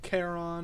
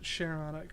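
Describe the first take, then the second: First: The word begins with a k sound. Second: The word begins with an sh sound. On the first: The speaker calls it wrong. "sounds weird ... not Cayenne" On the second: The speaker calls it right. "I pronounce it Charon. ... it's like Cheyenne"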